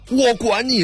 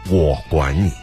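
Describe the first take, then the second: First: It is said in an angry, irritated tone. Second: It is said in a gentle, warm tone. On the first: I don't care what you say. "放在一个愤怒情绪当中" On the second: I will look after you. "温柔的"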